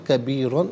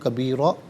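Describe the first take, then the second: First: The word ends with an -an sound. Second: The word ends with a long -a sound. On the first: The reading continues without a stop. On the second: The reader stops at this word.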